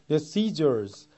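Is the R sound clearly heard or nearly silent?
clearly heard. The R sound at the end is clearly heard. "R 발음이 들리는 발음"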